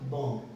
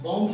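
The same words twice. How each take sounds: First: बॉम्ब read as "bom", ending on m; silent b. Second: बॉम्ब as written, b audible after m; final b sounded. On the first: Teacher showing students how it is read, silent b. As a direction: let बॉम्ब close on m without b. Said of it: "पर पढ़ेंगे क्या?". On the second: Teacher contrasting spelling with reading, final b sounded. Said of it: "बॉम्ब लिखा है पर". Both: Shown as a demonstration.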